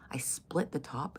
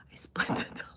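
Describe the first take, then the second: First: Said in the usual way. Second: Words broken up by laughter; real laughing. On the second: Real, not acted. Cracking up at her own crude joke, laughing. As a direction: crack up halfway through the sentence.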